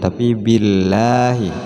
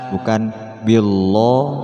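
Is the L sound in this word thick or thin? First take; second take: thin; thick. First: The L sound is light and thin. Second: The L sound is heavy and thick. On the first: The speaker calls it right. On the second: The speaker calls it wrong. "bukan seperti itu"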